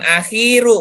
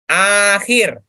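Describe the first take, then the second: First: The first vowel is said short. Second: The first vowel is said long. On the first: The speaker calls it wrong. "bukan akhiru, bukan" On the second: The speaker calls it right. "A-nya panjang"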